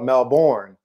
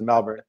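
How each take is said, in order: First: It sounds like a plain outsider, American-style pronunciation. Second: It sounds halfway between the local and outsider pronunciations. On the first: The speaker would sound obviously foreign. The speaker calls it wrong. "you can't sound like a honky either and call it" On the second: The speaker fits in without faking it. The speaker calls it right. "you gotta have a little happy medium. I call it, you know, just"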